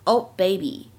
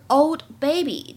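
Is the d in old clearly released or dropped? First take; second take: dropped; released. First: The d of old is not released. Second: The d of old is clearly released.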